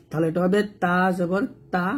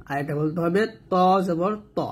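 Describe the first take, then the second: First: তা said thin and light, not heavy; light Arabic তা. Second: ত said thick and heavy from the back; heavy ত in ত জবর ত; heavy Arabic ত. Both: Shown as a demonstration. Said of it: "দুটোই তা তা উচ্চারণ করা যাবে না".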